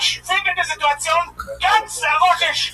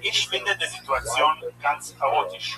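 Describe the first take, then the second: First: The sentence is yelled loudly. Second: The sentence is said at a normal volume.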